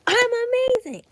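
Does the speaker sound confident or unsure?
confident. It sounds confident and convincing.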